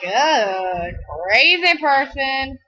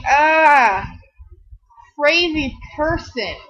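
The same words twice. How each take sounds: First: Slow, scornful 'Ugh, crazy person'; disgusted mutter. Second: Shouted 'Ah' then 'crazy person'; startled yell. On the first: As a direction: drawl it out with disdain. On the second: Stranger of another ethnicity startled by her, mock yelp. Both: Retold or imitated.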